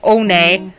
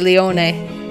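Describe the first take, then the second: First: The name is said like the word 'one'. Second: The name is said as 'Leone', with more syllables. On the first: The speaker calls it wrong. "Have I been mispronouncing this? Because I said One" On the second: The speaker calls it right. "Must be Leone"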